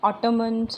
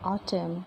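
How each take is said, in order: First: The n at the end is sounded. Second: The n at the end is silent. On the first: The speaker calls it wrong. "हम ऑटमन, कॉलमन नहीं बोलते" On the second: The speaker calls it right. "हम क्या बोलेंगे?"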